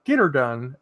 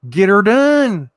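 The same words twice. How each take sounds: First: Said in the usual way. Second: Louder, higher, stretched-out catchphrase; emphatic rallying cry. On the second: Shown as a demonstration. Rallying a viewer to get her done, loud drawn-out holler.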